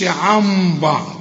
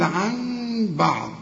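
First: The nasal is a full m with closed lips. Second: The nasal is hidden, with lips not fully closed. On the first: The speaker calls it wrong. "ما تقولش عن بعض" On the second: The speaker calls it right. "قول عن بعض"

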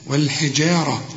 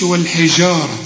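First: The j sound is clear and distinct. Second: The j sound drifts toward an sh sound. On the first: The speaker calls it right. "لا والحجارة" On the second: The speaker calls it wrong. "الجيم هنا ممكن بتدخل في الشين وده خطأ، ما تقولش"

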